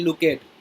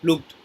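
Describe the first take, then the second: First: The ending is an extra 'ed' syllable. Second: The ending is a short t sound. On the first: The speaker calls it wrong. "we will never say look at, is wrong" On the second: The speaker calls it right. "the sound of D will be like ta"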